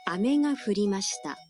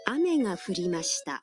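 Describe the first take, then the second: First: Pitch stays level through ame. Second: Pitch drops after the first syllable of ame. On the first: Candy dropped. "if you pronounce it like this, the meaning would be candy dropped" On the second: Rain fell. "means it rained"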